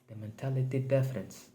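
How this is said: It is spoken in a put-on Hispanic accent.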